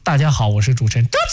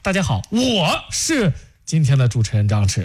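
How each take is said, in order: First: The name 张弛 is said louder. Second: The word 我 is said louder.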